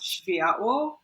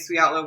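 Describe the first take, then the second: First: The name is said with Polish sounds. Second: The name is said with simplified English sounds. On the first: This is the original form of the word. "It's actually pronounced Światło" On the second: This is an easier form for foreign markets. "we just say Sviatlo"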